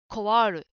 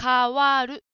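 First: The first syllable sounds like an English-like 'kowa'. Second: The first syllable is a clearly said 'ka'. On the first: The speaker calls it wrong. "ちょっと英語のような発音になると、コワールに近くなってしまいますね" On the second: The speaker calls it right. "かをはっきり言いましょう"

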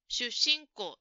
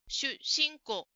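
First: The s sound is doubled and held. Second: The same.

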